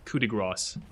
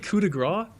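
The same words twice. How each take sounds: First: The final s of grace is pronounced. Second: The final s of grace is silent. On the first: It is said the way others reportedly say it. "supposed to pronounce like the S" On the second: It is said the French way. "I would always say coup de grace"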